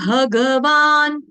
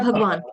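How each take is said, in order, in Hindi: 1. 'ga' पूरा बोला जाता है, स्वर सहित। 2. 'ga' छोटा बोला जाता है, उसका स्वर छूट जाता है। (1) "संस्कृत में भगवान, ग पूरा" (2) "ये हिंदी में चलता है भगवान"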